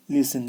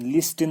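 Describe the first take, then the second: First: लिसन with S straight into N, no T; right form लिसन, T left out; silent T. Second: लिस्टन with a T after the S; wrong form लिस्टन, T pronounced; sounded T. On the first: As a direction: say लिसन as "lis-un". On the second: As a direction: say लिस्टन as "lis-tun". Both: Shown as a demonstration. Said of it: "लिस्टन नहीं पढ़ेंगे".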